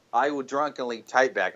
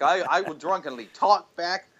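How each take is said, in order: First: Said in the usual way. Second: Slurred mock drunk voice, higher. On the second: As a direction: lightly play a drunk slurring.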